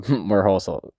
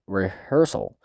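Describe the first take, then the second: First: "rehearsal" garbled into "muh-HOR-sul"; stumbled pronunciation. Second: Said in the usual way. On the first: Real, not acted. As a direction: fumble "rehearsal", swallowing its first syllable. Fumbled word, then said again correctly.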